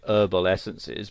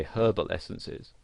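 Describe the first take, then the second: First: Herbal essences with the H dropped, "erbal"; American pronunciation. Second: Herbal essences with the H sounded; British pronunciation. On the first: Tutor explaining a misspelling from American speech, H silent in "herbal". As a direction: start "herbal" on the vowel, silent H. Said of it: "that's how they would pronounce it". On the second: Tutor contrasting British English with American, H pronounced in "herbal". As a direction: say "herbal" with a clear H at the start. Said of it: "in British English you would pronounce the H". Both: Shown as a demonstration.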